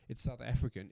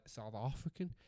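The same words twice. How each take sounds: First: Said in the usual way. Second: Slipping into an unplaceable accent; South African in a stray, softer accent; odd accent. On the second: Real, not acted. Saying where the chocolate is made, in an odd accent. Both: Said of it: "I don't know what accent that was".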